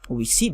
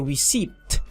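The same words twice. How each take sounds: First: The P sound is silent. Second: The P sound is pronounced. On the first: The speaker calls it right. "the letter P is not pronounced" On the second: The speaker calls it wrong. "I don't say receipt"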